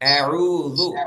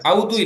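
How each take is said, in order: First: The opening vowels are 'a' then a long 'oo'. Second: The opening vowels merge into one 'aw' sound. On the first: The speaker calls it right. "அ உ அஊது" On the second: The speaker calls it wrong. "அவுதுன்னு சொல்லக்கூடாது"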